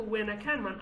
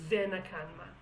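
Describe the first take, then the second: First: Said in the usual way. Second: "Venakanman" with a v at the start; singer's pronunciation. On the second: Retold or imitated. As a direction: say "Venakanman" with v, not w. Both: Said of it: "I've never said Venakanman".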